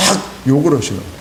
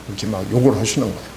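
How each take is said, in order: First: Said in the usual way. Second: Fast, a bit softer mock grumble; quick mock muttering to oneself; grumbling to himself. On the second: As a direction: rattle it off like a man cursing under his breath. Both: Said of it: "혼자 시부렁시부렁".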